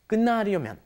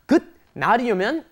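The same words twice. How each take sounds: First: The first syllable ends with an N sound. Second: The first syllable ends with a T sound. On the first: The speaker calls it right. "you don't pronounce that T there... It turns into an N" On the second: The speaker calls it wrong. "It's not"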